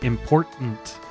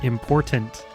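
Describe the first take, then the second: First: The T is replaced by a glottal stop. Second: The T is pronounced as a full T. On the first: The speaker calls it right. "They're just like a, a glottal stop" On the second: The speaker calls it wrong. "not important"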